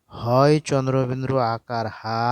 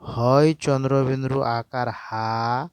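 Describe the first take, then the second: First: Said in the usual way. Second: Teacher dictating syllable by syllable, slowly; slow spelling out. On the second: Shown as a demonstration. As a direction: slowly spell out হয় চন্দ্রবিন্দু আকার হা, drawing out each part. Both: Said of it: "তাহলে এটা কেমন করে উচ্চারণ করব?".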